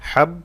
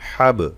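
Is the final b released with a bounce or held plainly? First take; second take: held plainly; bounce. First: The final b ends plainly with no bounce. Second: The final b ends with a bouncing echo. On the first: The speaker calls it wrong. "হাব কলকলা হয় নাই" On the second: The speaker calls it right. "হাব কলকলা করলাম।"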